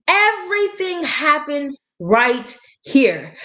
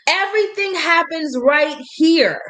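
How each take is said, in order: First: Each word drawn out slowly; slow emphatic repeat of Everything happens right here; slow and deliberate. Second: Said in the usual way. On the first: Shown as a demonstration. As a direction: lean on it slowly so it sinks in.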